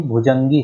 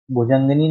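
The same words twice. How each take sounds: First: भुजंगी ending directly in -gee; correct -ee ending. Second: भुजंगिनी ending in -gini; wrong -ini ending. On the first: Teacher giving the correct word, भुजंगी ending in -gee. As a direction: end भुजंगी on long gee, no ni. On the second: Teacher naming the error, भुजंगिनी with -ini ending. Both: Shown as a demonstration. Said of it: "भुजंगिनी नहीं".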